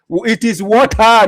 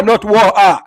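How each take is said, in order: First: Water as "WAW-tuh", high, loud and slow; drawn out "WAW-tuh", insisting; Ghanaian water. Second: Water as "WAW-ah", high and loud, dismissing it; "not WAW-ah", brushing off the wrong version; rejected water. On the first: Ghanaian local insisting on "WAW-tuh", loud and high. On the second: Ghanaian local rejecting the other water, loud and high. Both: Shown as a demonstration. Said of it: "here we say water".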